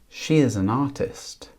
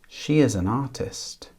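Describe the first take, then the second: The two takes are said the same way.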